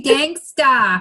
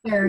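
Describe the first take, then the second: First: "gangsta" with a dropped r and an open "ah" at the end; correct slang pronunciation. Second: "gangster" with a full r at the end; wrong standard pronunciation. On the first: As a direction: say "gangsta", ending in "-tah", no r. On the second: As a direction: say "gangster" the proper way, ending in "-ter". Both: Shown as a demonstration. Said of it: "it's supposed to be gangsta, not gangster".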